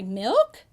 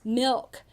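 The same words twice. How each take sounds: First: The voice rises at the end. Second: The voice falls at the end.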